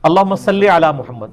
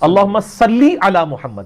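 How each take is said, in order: First: The second word ends in an 'e' vowel. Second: The second word ends in an 'ee' vowel. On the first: The speaker calls it wrong. "ये गलत है" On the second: The speaker calls it right. "क्योंकि अरबी में तो लामज़र ली होता है"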